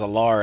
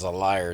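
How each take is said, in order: First: The second syllable sounds like 'lar'. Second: The second syllable sounds like 'liar'. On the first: "He used to say it was a lar" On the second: "and then he says it's a liar"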